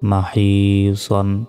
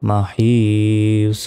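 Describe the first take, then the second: First: The word ends with an added 'n' sound. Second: The word ends without any 'n' sound. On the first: The reading continues without stopping. "সদ দুই জবর সন" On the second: The reader stops at this word. "দুই জবরে থামলে একটি জবর উচ্চারণ হবে না"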